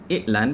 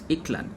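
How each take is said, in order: First: The middle consonant is a glottal stop. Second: The middle consonant is a K sound. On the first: "the glottal stops" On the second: "the K sounds are now replacing the glottal stops"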